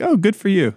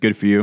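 First: It is said in a sly, sarcastic tone. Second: It is said in a plain, neutral tone.

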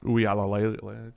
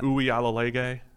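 First: The last syllable starts with an L sound. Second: The last syllable starts with a G sound. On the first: "It's not that" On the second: "Did you just insert a G in there from nowhere?"

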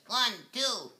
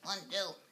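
First: The voice is pushed out from the diaphragm. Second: The voice is weak, without diaphragm push.

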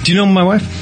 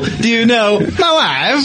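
First: It is said in a plain, ordinary way. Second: It is said in an exaggerated, showy way. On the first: "He'll always say" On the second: "Instead of the extremely cool"

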